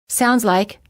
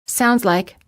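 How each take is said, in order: The two takes are said the same way.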